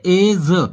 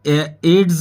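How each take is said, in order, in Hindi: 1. यह शब्द 'j' की आवाज़ से खत्म होता है। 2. यह शब्द 'ds' की आवाज़ से खत्म होता है। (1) "इसको बोलेंगे एज" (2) "एड्स नहीं बोलेंगे इसको"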